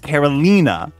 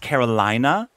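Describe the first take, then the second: First: The third syllable has an 'ee' vowel. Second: The third syllable has an 'eye' vowel. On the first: The speaker calls it right. "It's Carolina with E, like with an E sound" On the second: The speaker calls it wrong. "You just put a lot of eyes, which is making me think it's Carolina, like South Carolina"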